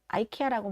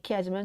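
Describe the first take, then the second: First: The name begins with an 'eye' sound. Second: The name begins with an 'ee' sound. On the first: This is the American or British way of saying it. "저는 아이케아라고 많이 발음하거든요" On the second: This is the Korean way of saying it. "한국식으로는"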